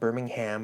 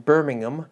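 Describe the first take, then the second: First: It is pronounced with an American accent. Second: It is pronounced with a British accent. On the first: This is the habitual non-local pronunciation. The speaker calls it wrong. "not Birmingham, as I keep saying throughout the course of this episode" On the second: This is the local pronunciation of the city. The speaker calls it right. "a distinction that I learned having lived in the U K"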